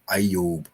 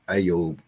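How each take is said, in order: First: The name is said as two syllables, ending 'yob'. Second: The same.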